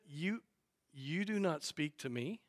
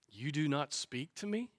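First: It is said pompously, imitating Pilate's puffed-up swagger. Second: It is read plainly, without swagger.

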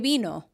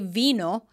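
First: The word begins with a B sound. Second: The word begins with a V sound. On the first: The speaker calls it right. "A V sometimes is a B sound" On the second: The speaker calls it wrong. "people don't say vino"

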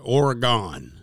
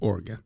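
First: Every syllable of the word is carefully pronounced. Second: The word is run together smoothly and loosely. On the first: This is how people from the Northeast say it. "we overpronounce it" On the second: This is how the locals say it. "kind of let it roll out. Just Oregon"

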